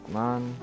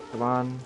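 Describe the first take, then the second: No difference in how they are said.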